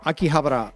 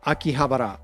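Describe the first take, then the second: First: It is said with a Japanese pronunciation. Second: The same.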